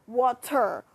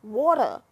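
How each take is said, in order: First: Water in two careful parts, wah-TER; water over-enunciated, final r hit hard; broken-down water. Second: Water as wawta, r dropped; water ending in a loose uh; dialect water. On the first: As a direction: spell out water by sound for a puzzled listener. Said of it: "Let me break it down for you". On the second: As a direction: repeat water in local dialect. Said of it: "Say it again". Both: Acted.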